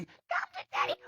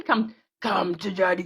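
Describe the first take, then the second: First: Tiny, very high soft squeak. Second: Slow, drawn-out spooky taunt; song impression. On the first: Retold or imitated. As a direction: imitate a creepy little voice, squeaky and hushed. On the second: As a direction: imitate a creepy song vocal, stretching it.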